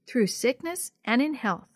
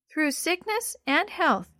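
First: Said in the usual way. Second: Put-on high, slow little-girl voice; little sister. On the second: A narrator's reading. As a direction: repeat the vow slowly as a small child. Little sister repeats the vow.

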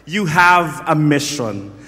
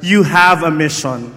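First: Slow, loud, weighing each word; preacher leading the crowd to repeat it; slow emphatic declaration. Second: Loud, punchy call to the neighbour; loud repeat-after-me. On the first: Preacher has the crowd say it, slow and loud. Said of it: "Can you say empower?". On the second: Preacher tells the crowd to say it to their neighbour, loudly. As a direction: say it out loud to the person beside you. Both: Shown as a demonstration.

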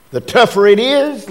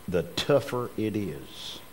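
First: "The tougher it is" raised higher and punched; stress on tougher. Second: Said in the usual way. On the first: Shown as a demonstration. Preacher pressing the point home to the congregation, emphatic restatement. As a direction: repeat "tougher it is" higher, with force.

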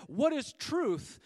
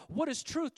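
First: What is truth said slow and weighty, landing on What; preacher shows Pilate's scornful question; retorted. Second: Said in the usual way. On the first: Shown as a demonstration. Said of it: "retorted Pilate". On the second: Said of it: "just sounds like a regular statement".

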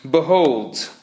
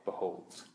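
First: Solemn, ringing prophet's Behold; a preacher's grand Behold; biblical proclamation. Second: Behold breathed in a soft whisper; a secret whispered Behold. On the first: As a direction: declaim Behold like an Old Testament prophet. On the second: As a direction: drop Behold to a hush. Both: Shown as a demonstration. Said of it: "very biblical, right?".

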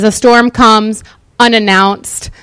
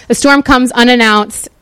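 First: "storm" stressed, "A storm comes unannounced" read slowly; slow, weighty reading. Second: Said in the usual way. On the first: Shown as a demonstration. Reading scripture to the congregation, "storm" stressed and slow. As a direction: lean on "storm" and let the line land slowly. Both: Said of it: "there's supposed to be an announcing".

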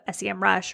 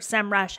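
First: "S E M rush" with S, E, M said as separate letters; spelled-out pronunciation. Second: "sem rush" with "sem" as a single syllable; one-word pronunciation. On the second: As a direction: run the letters together as "sem" in "sem rush". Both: Shown as a demonstration. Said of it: "however you want to pronounce it".

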